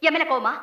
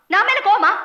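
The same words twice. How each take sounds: First: Said in the usual way. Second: Louder and higher, pushing the question; loud repeat. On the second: Acted. Wife demanding an answer from husband, loud. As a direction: fire the same question back hard.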